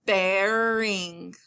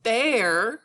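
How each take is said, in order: First: BEARING stretched slowly as one connected word; drawn-out word. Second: BEARING broken into "bear" and "ing"; syllable split. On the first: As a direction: say "Bearing" long, without a break. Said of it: "sometimes when I say the word". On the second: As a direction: pause after "bear" in "bearing", then say "ing". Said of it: "So when I hear". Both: Shown as a demonstration.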